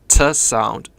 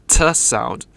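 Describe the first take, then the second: The two takes are said the same way.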